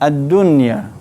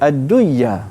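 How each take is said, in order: First: The n is pronounced clearly without nasal merging. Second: The n merges into the y with nasalization. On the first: The speaker calls it right. "Di sini kita tak boleh baca dengan dengung" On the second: The speaker calls it wrong. "sekiranya kita baca uh, idgham, nun ni akan masukkan lam ya"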